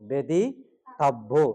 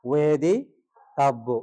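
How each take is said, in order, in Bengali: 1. শব্দটি b ধ্বনি দিয়ে শুরু হয়। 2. শব্দটি w ধ্বনি দিয়ে শুরু হয়। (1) "এখানে আছে বেদিতাভ্য" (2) "বকে যদি আমরা উচ্চারণ করি ওয়েদি"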